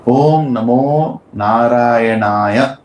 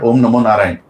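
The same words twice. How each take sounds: First: "Narayanaya" drawn out slowly to the final "ya"; full mantra pronunciation. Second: "Narayan" ended on the n, without "aya"; shortened mantra ending. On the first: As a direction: chant "Om Namo Narayanaya" slowly, every syllable complete. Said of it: "It is Naya". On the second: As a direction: say "Om Namo Narayan" quickly, dropping the final "aya". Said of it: "It's not Om Namo Narayan". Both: Shown as a demonstration.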